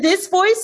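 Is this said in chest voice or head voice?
chest. It is said in a fuller, lower chest voice. This is the voice actually used at the audition. "I was singing it in this voice instead"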